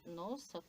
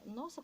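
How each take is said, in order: First: It is said with an ironic, mocking tone. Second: It is said with an astonished, surprised tone. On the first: The speaker does not really mean it. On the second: The speaker did not expect it.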